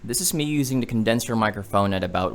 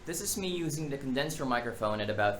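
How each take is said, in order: First: The voice is recorded about one foot away. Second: The voice is recorded about three feet away. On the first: "at about one feet away" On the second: "at about three feet away"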